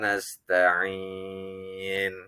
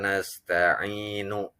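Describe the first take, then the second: First: Its long vowel is held, then it stops. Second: It ends with a short added vowel, connected on. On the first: The reading pauses at this point. "kalau dibaca waqaf maka nasta'in lebih panjang, kurang lebih lima harokat" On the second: The reading continues on without stopping. "Jika dibaca wasol. Wasol itu artinya sambung"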